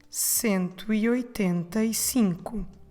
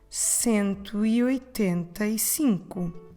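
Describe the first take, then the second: No difference in how they are said.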